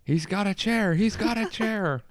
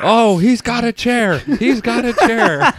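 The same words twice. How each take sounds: First: High, restrained ringside call; mock commentator reprise. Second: Loud, high, drawn-out ringside alarm; mock wrestling commentator. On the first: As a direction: replay the wrestling call at half volume. Reprises the wrestling commentary joke. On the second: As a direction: call the family brawl like a wrestling match. Mock wrestling commentary on family fight.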